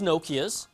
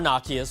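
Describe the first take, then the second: First: The name is said the everyday English way. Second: The name is said the purists' way.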